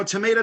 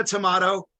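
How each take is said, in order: First: "tomato" with a long AY in the middle; American-style tomato. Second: "tomato" with an open AH in the middle; British-style tomato. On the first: Comic to audience, pronouncing "tomato" with an AY vowel. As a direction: say "tomato" as tuh-MAY-toh. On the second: Comic to audience, pronouncing "tomato" with an AH vowel. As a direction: say "tomato" as tuh-MAH-toh. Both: Shown as a demonstration. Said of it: "it's all perspective".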